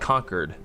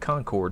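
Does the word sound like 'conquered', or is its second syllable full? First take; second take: conquered-like; full. First: The word sounds just like 'conquered'. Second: The second syllable is full, not like 'conquered'. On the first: "as in someone's been defeated and conquered" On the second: "I would always call it Concord"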